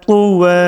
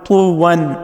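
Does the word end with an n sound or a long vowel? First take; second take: long vowel; n sound. First: The word ends with a lengthened vowel. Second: The word ends with an n sound. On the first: The reader stops on this word. "दो ज़बर पे आपने वक्फ करना है" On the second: The word is read in full without stopping. "अगर आप इसको मुकम्मल पढ़ते"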